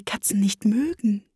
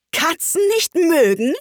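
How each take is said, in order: First: Said in the usual way. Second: High, indignant shriek; furious screech. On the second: A narrator's reading. Outraged mouse repeats Alice's words, screeching furiously. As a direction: screech the question back in outrage. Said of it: "schrie die Maus mit kreischender, wütender Stimme".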